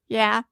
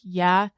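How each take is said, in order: First: Said in a tiny, childlike put-on voice. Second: Said in an ordinary, natural speaking voice. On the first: "his little kid voice is yeah" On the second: "him saying yeah is he goes yeah"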